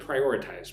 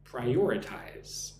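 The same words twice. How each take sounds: First: Said in the usual way. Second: "Prioritize" drawn out slowly, second syllable stressed; nice and slow. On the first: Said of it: "Look at the word prioritize". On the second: Shown as a demonstration. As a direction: model "Prioritize" at half speed for repeating. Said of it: "nice and slow".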